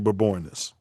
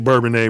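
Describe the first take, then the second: First: The name ends with an 'is' sound. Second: The name ends with an 'ay' sound. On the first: The speaker calls it right. "it's really" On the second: The speaker calls it wrong. "some people say"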